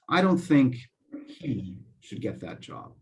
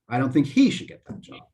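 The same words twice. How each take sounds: First: One word is set off by pauses, not louder. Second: One word is louder and higher in pitch. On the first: "I didn't say it any louder, but I took a pause before and after the word" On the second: "That's louder and higher pitch"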